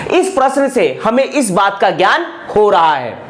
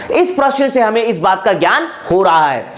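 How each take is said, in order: Both takes have the same delivery.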